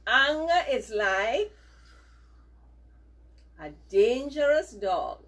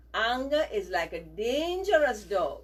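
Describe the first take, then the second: First: Slow and loud, word by word; loud, measured dictation. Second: Said in the usual way. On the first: Shown as a demonstration. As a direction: spell it out for the class to repeat. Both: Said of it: "repeat these words after me".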